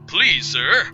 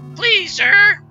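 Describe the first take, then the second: First: It is said in a put-on frog voice. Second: It is said in his normal voice.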